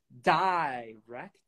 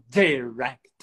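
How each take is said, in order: First: "direct" as DIE-rect, DIE drawn out; long i variant. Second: "direct" with short first vowel, di-RECT; short vowel variant. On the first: Teacher says either is fine, long i direct. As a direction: stretch "die" in "direct", slowly. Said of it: "quer falar direto". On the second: Teacher says either is fine, short vowel direct. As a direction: say "direct" slowly without the "die" sound. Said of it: "ou direct". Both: Shown as a demonstration.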